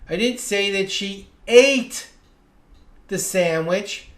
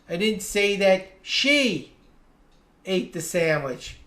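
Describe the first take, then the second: First: The stress falls on the word "ate". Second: The stress falls on the word "she". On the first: She did something else with the sandwich. "Maybe she juggled it or gave it to someone" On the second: Someone else ate the sandwich. "I said someone ate the sandwich, but it wasn't her"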